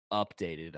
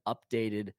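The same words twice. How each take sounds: First: Softer, in ironic air quotes. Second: Said in the usual way. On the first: Shown as a demonstration. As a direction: mark "updated," as a not-quite word, said softer. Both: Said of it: "I put in air quotes".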